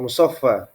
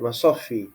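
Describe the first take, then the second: First: The second-to-last vowel is an a sound. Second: The second-to-last vowel is an i sound. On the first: "di fathah" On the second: "di kasrah"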